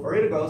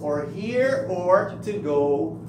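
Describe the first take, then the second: First: It is said quickly, with the words run together. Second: It is said calmly and clearly, word by word.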